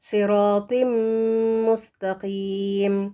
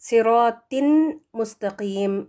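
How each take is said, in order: First: The n becomes a nasal m held two counts. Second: The n sound is clearly pronounced before mustaqeem. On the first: "हमने टू counts गुन्ना भी देना है" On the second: "अलग-अलग अगर आप इसको पढ़ें"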